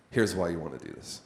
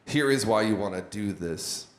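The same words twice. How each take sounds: First: Said in the usual way. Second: Is given weight, spelled out as a separate word; stress on is. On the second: Shown as a demonstration. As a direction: lean on is in Here is why. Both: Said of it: "difference between saying, "Here's why," and, "Here is why".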